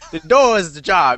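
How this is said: It is said in a streetwise hood voice.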